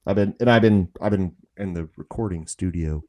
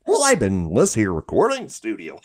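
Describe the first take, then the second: First: Said in the usual way. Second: Swooping cartoon goofball voice; Goofy. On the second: Stuck in a cartoon voice after studio week, goofy and swooping. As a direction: repeat it as a hammed-up cartoon goof. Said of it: "you get stuck like that".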